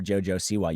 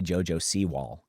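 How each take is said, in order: First: The surname ends in a plain 'wa' sound. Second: The surname sounds like the word 'seawall'. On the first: "You don't even call her [name]" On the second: "You say [name]"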